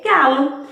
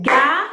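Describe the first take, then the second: First: Said in the usual way. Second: "galo" broken into ga, lo, with a gap; clapped syllables. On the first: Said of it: "a gente viu aí o quê?". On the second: Shown as a demonstration. Teacher clapping out galo for pupils, syllable by syllable. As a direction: stretch "galo" into two separate beats, ga and lo. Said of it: "A gente bate palmas".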